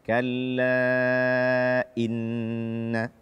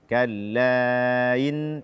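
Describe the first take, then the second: First: The glottal stop before inna is clear. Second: The glottal stop before inna is blurred. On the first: The speaker calls it right. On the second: The speaker calls it wrong.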